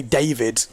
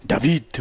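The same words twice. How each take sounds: First: Said in the usual way. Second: French-accented DAVID, stress on the second syllable; French pronunciation. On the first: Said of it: "Like how I would say David". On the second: Shown as a demonstration. Commentator giving viewers an example, French accent. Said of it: "you would say David or something".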